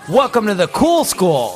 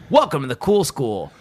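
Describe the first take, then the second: First: The voice is at its normal pitch. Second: The voice is pushed low and deep.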